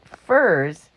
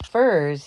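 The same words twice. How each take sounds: First: Louder second "Furs?" falling in disbelief; dumbfounded cry. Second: Stunned "Furs?" with a falling tune; a dumbfounded man crying out the word "Furs?". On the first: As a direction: repeat "Furs?" as it sinks in. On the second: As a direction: blurt "Furs?" in disbelief. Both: A narrator's reading. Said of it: "he cried out".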